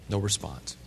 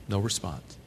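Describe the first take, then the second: The two takes are said the same way.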